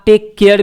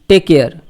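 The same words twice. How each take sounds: First: The two words are pronounced as separate units. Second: The two words run together in one unit. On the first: This form is also acceptable. "हो सकता है आप टेक केयर भी बोलें, तो वो भी सही है" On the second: This is the everyday conversational form. "ये बोलचाल की भाषा में टेक केयर हो जाता है"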